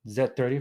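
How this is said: The letter Z is said as 'zed'.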